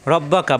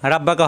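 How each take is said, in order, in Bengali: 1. প্রথম স্বরধ্বনিটি গোলাকার o-এর মতো শোনায়। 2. প্রথম স্বরধ্বনিটি খোলা a-এর মতো শোনায়। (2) "রাব্বাকা হবে না"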